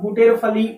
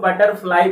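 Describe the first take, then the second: First: It is read letter by letter: booter-fali. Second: It is said smoothly as butterfly. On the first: The speaker calls it wrong. "जैसा लिखा है, अगर उस तरह पढ़ेंगे आप" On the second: The speaker calls it right. "इसको बटरफ्लाई पढ़ते हैं"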